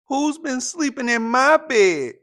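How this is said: It is said in a medium-pitched voice.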